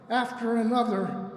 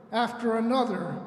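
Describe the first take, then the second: No difference in how they are said.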